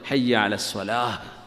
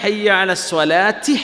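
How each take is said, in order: First: The last word ends in an h sound. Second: The last word ends in a ti sound. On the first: The phrase is said on its own, with a stop after it. "അത് ഹ ആയിട്ടാ ഉച്ചരിക്കുക ഒറ്റ വാക്ക് പറയുമ്പോൾ" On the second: The phrase runs on without stopping. "നിർത്താതെ പറയുകയാണെങ്കിൽ"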